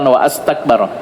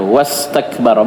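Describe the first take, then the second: First: A glottal stop separates wa from astakbara. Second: The words run together with no glottal stop. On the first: The speaker calls it wrong. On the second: The speaker calls it right. "buang hamzahnya itu"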